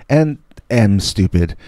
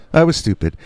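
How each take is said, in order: First: "am" stressed in a slow admission; slow down and lean on "am". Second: "was" in a brisk admission; past-tense admission. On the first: Storyteller adding his present self, "am" stressed. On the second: Storyteller judging younger self, "was" said briskly. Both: Real, not acted.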